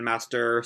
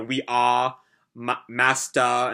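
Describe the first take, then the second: First: "master" said with a full American R; R kept. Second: "master" said as "mastah" with no R; non-rhotic "master", ending in "ah"; dropped R. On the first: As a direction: finish "master" with a clear "er". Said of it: "instead of master". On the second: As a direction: say "master" with the R dropped, British-style. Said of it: "turns all of his R's into Ahs". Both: Shown as a demonstration.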